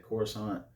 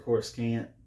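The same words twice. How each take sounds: First: The ending sounds like the word croissant. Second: The ending does not sound like croissant. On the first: The speaker says it this way. "I say Coruscant, like a croissant" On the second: Other people say it this way. "Some people say Coruscant"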